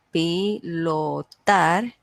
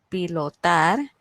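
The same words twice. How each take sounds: First: Pilotar drawn out very slowly, stress on the last syllable tar. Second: Said in the usual way. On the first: Shown as a demonstration. Teacher showing a class the stressed syllable, pilotar slowly split up ending on a strong tar. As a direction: say pilotar in slow separate syllables, leaning on tar. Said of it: "una de las sílabas se pronuncia con mayor fuerza". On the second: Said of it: "se pronuncia con mayor fuerza".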